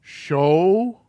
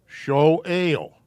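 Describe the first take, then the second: First: "show" said short with a rising tune; "show" with a quick lift at the end; first try at the word. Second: "Show ale" slow, the two syllables apart; corrected full word. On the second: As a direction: spell out "Show ale" slowly, falling. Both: Shown as a demonstration. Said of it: "This is an A sound".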